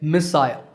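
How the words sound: It is said in a British accent. "the British say missile"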